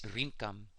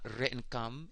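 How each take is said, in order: First: The first vowel sounds like 'i'. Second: The first vowel sounds like 'e'. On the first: The speaker calls it right. "it's Rinkam" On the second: The speaker calls it wrong. "It's not Re'nkam"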